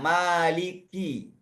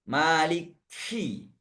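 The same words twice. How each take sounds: First: The k is released plainly without extra breath. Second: The k is released with an exaggerated puff of breath. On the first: The speaker calls it right. "dengan ki biasa" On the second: The speaker calls it wrong. "sering saya temukan berlebihan dalam kaf"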